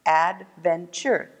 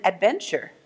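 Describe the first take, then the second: First: "Adventure" slowly split into ad, ven, ture; syllable by syllable. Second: Said in the usual way. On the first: Shown as a demonstration. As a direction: count out "Adventure" in three slow beats. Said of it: "Three syllables". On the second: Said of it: "How many syllables in adventure".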